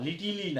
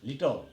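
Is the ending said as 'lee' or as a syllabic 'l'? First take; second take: lee; syllabic l. First: The word ends with a full 'lee' sound. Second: The word ends with a short syllabic 'l' sound. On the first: The speaker calls it wrong. "লিটিলি না" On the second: The speaker calls it right. "ল উচ্চারণ হবে"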